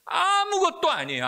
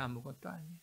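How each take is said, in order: First: High, loud cry of nothing at all; shouted declaration. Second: Much softer, drop to a hush; soft echo. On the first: Preacher crying out to parents, loud shout. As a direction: hurl it out with full force. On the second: Preacher echoing to congregation, soft fading repeat. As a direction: let the words fall away quietly. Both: Real, not acted.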